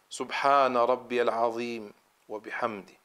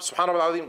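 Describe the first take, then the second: First: The phrase is said very slowly. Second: The phrase is said very fast.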